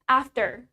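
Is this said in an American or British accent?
American. It is said in an American accent, clear r. "in American English, we pronounce it as after"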